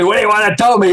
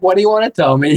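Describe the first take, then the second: First: "What do you wanna tell me?" with the weight on "tell", falling at the end; a mild retold version punching "tell"; stress on TELL. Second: "What do you wanna tell me?" with "you" lifted as the key word, open and curious; a mild retold version lifting "you"; stress on YOU. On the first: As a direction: lean hard on "tell", like a defensive snap-back. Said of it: "instead of telling me". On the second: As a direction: lean on "you", inviting him to share. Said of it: "It was like".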